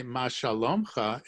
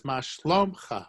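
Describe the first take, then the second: First: מה שלומך as ma shalomkha, shalom kept whole; wrong form. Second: מה שלומך as ma shlomkha, quick, shalom shortened to shlom; right form. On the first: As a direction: say מה שלומך with the full word shalom in the middle. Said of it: "It doesn't say". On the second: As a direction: clip מה שלומך fast to ma shlomkha. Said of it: "it says". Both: Shown as a demonstration.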